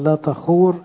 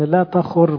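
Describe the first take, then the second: First: The long oo vowel is clearly sounded. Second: The long oo vowel is dropped or shortened. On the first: The speaker calls it right. "في النطق المفروض تبين ان في واو" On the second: The speaker calls it wrong. "لا تخور مش هتتفهم"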